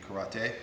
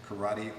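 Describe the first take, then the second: First: The word is said with Japanese-style sounds. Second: The word is said with American English sounds. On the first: This is the proper form. The speaker calls it right. "the proper pronunciation would be karate" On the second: This is the common form in the United States. The speaker calls it wrong. "In the United States, we say karate"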